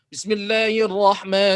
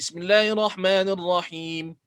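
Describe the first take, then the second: First: The whole phrase is read quickly with short vowels. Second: The final vowel is stretched to four beats. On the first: "Bila baca cepat, kita baca cepat"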